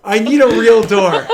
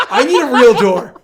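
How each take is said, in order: First: Relieved laughter. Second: Loud laughing complaint; relieved laughter. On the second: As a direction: laugh it out, still jumpy. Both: Real, not acted. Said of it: "that scared the shit out of me".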